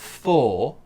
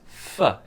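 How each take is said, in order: First: The word is said in its full form. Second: The word is reduced to a weak form. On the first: The speaker calls it wrong. "it's not for" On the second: The speaker calls it right. "It's a weak f"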